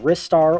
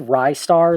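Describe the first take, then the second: First: The first vowel sounds like 'rih'. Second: The first vowel sounds like 'rye'. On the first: The speaker calls it right. "the correct pronunciation being Ristar or Restar" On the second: The speaker calls it wrong. "like Rising Star"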